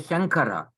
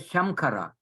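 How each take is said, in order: First: The nasal before the k is an ng sound. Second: The nasal before the k is an m sound. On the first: The speaker calls it right. "You say Shankara" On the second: The speaker calls it wrong. "You don't say Shamkara"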